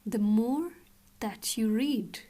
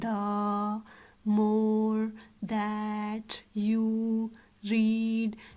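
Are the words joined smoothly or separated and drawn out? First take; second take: joined; separated. First: The words run together quickly without any pauses. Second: Each word is drawn out and separated by pauses. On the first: The speaker calls it right. "एक साथ आप कैसे read करोगे?" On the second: The speaker calls it wrong. "Words को extend नहीं करना है, ऐसे नहीं पढ़ना"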